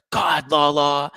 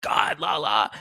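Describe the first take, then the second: First: Sandoval catchphrase, loud. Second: Whispered Sandoval catchphrase. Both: Retold or imitated. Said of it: "He always did the".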